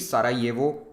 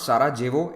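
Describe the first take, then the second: First: The j sounds like the English y. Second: The j sounds like the English j. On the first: The speaker calls it right. "the written J is pronounced like Y" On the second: The speaker calls it wrong. "it is not Sarajevo"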